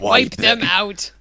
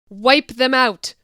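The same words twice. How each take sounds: First: It is said in a Palpatine impression voice. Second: It is said in her normal voice.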